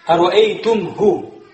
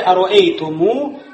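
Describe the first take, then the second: First: No vowel follows the m. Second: A long u vowel follows the m. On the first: The speaker calls it wrong. "Если мы скажем просто, ... без этой вау" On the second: The speaker calls it right. "После мима приходит у нас аль-вау"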